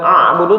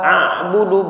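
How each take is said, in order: First: It begins with a throaty ain sound. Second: It begins with a light glottal stop. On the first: The speaker calls it wrong. "bukan a'budu" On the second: The speaker calls it right. "La a'budu"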